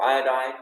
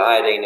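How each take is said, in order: First: It is said with the local pronunciation. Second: It is said with the British pronunciation. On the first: "Is that how you say it in this country?" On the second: "We call it iodine in England"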